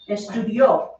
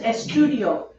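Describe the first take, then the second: First: The stress falls on the last syllable. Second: The stress falls on the middle syllable. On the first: Someone else studied in the past. "he studied" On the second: The speaker is the one who studies. "I study"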